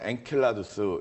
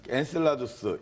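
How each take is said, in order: First: The middle consonant is a k sound. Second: The middle consonant is an s sound.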